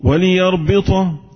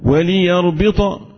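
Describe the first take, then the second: First: The l sound carries a vowel. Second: The same.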